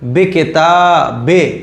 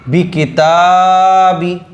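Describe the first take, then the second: First: The vowels are pronounced as an 'ay' sound. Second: The vowels are pronounced as a clear 'ee' sound. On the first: The speaker calls it wrong. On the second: The speaker calls it right.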